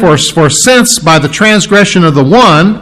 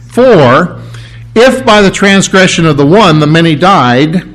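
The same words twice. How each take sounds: First: Since leaned on as the key swap; stress on since. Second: Said in the usual way. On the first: Shown as a demonstration. Reading the verse to the church, stressing since. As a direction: swap in since and push the word since. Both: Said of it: "you can put the word "since" in there".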